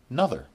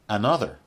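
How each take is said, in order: First: It is said in its most reduced form. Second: It is said in its full, careful form. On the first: "the least formal" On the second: "the most formal"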